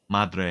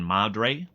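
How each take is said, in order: First: It is said with a Spanish-like accent. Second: It is said with a heavy American accent. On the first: "how do you get it good?" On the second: "I intentionally put some American stank on the Madre"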